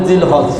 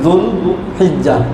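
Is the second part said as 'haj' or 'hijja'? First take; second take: haj; hijja. First: The second part is a short 'haj'. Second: The second part is a longer 'hijja'. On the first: The speaker calls it wrong. "আমরা বলি জিল হজ" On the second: The speaker calls it right. "এটা হলো সঠিক উচ্চারণ"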